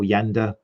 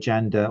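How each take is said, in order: First: The name begins with a Y sound. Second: The name begins with a J sound. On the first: The speaker calls it right. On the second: The speaker calls it wrong.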